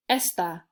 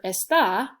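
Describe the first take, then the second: First: ESta, weight on the E; stress on first syllable. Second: EsTÁ, punched on the final A; stress on last syllable. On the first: Teacher contrasts two words, stressing the first syllable of esta. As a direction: hit the E of esta, ending unstressed. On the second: Teacher contrasts two words, stressing the final syllable of está. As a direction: land firmly on the end of está. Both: Shown as a demonstration. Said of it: "are pronounced differently".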